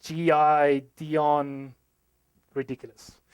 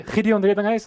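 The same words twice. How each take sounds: First: "G I Dion" said as separate G-I-Dion, then "ridiculous" in place of the surname, slow; American mispronunciation. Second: "Gideon Redlinghuis" said the South African way, raised and louder; proper South African pronunciation. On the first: Retold or imitated. South African man imitating how Americans butcher his name. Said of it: "they normally pronounce this as". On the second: Shown as a demonstration. Speaker at home saying his own name correctly, proudly. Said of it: "I can actually say that here".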